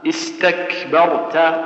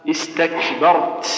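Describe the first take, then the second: No difference in how they are said.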